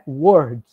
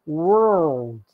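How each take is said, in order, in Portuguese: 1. É dito sem som de L. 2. É dito com som de L. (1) "Ela não é word" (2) "ela é world"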